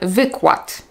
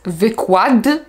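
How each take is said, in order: First: The final consonant is voiceless, like t. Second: The final consonant is voiced, like d. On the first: The speaker calls it right. "zamieniamy ją na głoskę bezdźwięczną" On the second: The speaker calls it wrong. "Nie powiem"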